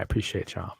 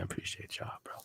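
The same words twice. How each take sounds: First: Said in the usual way. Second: Whispered thanks, no voice. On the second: Real, not acted. Thanking his viewers again, in a whisper. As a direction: breathe the thanks softly.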